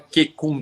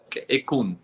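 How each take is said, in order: First: The whole word runs together without a break. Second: A percussive q is set apart before the rest. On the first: The speaker calls it wrong. "não é Qequm tudo junto" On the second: The speaker calls it right. "tem esse q e aí vem Equm"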